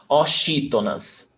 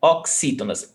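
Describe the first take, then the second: First: "oxítonas" mispronounced with a sh sound for the x; wrong-example "oxítonas", sh in place of ks. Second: "Oxítonas" with a ks sound for the x. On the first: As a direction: say "oxítonas" as o-SHEE-to-nas. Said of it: "not oxítonas". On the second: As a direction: say "Oxítonas" as ok-SEE-to-nas. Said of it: "the pronunciation of the X is x". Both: Shown as a demonstration.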